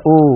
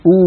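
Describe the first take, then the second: First: أو said as a long "oh"; أو as an open "o", not "oo"; faulty open waw. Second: أو said as a long pure "oo"; أو as a close "uu", never "oh"; pure Arabic waw. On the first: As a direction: loosen the lips so أو becomes "ooh" turned to "oh". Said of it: "وليس أو". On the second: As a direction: round the lips tightly on أو, "ooo". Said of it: "والواو العربية يا إخوتي". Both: Shown as a demonstration.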